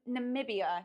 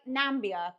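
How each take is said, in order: First: The word has four syllables, with a middle vowel. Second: The word has three syllables, with no middle vowel. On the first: The speaker calls it right. "but it's Nam Namibia" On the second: The speaker calls it wrong. "I keep reading it as like Nambia"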